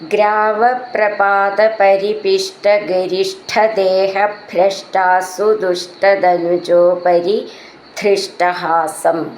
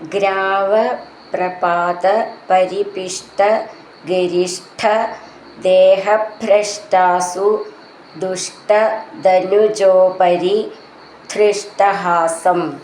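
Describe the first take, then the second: First: The words are recited joined in one flow. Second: The words are recited separately with breaks.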